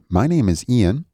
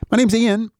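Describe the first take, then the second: First: It is said at a slow pace. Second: It is said at a quick pace.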